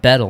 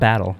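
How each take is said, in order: First: The first vowel sounds like 'bet'. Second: The first vowel sounds like 'bat'. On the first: The speaker calls it right. "Bettel, not Battle" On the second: The speaker calls it wrong. "not Battle"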